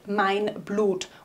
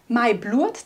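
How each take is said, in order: First: The n is kept and the vowel is plain 'u'. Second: The n is dropped and the vowel sounds 'ua'. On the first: "das heißt mein Blut" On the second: "das N weggelassen wird... wird das U zu ua"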